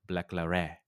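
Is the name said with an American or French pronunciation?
French. The name is said with a French pronunciation. This is how the name is probably really said. The speaker calls it right. "but it's probably pronounced like"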